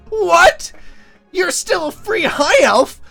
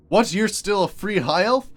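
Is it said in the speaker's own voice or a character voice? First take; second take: character voice; own voice. First: It is said in the character's put-on voice. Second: It is said in the speaker's own voice.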